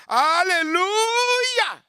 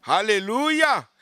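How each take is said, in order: First: High, drawn-out shouted alleluia; preacher crying out to the congregation. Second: Said in the usual way. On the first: Real, not acted. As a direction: stretch it into a long high cry.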